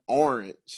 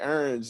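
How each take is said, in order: First: It is said with a standard general accent. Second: It is said with a local New Orleans accent. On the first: "instead of orange" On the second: "we say orange"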